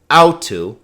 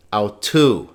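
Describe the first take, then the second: First: "au tu" with "au" punched high and loud; misplaced first-syllable stress. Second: "au tu" with the weight on "tu"; stress on second syllable. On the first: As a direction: hit "au" hard in "au tu", let "tu" drop. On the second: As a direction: say "au tu", stressing the final "tu". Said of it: "because the accent is here". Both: Shown as a demonstration.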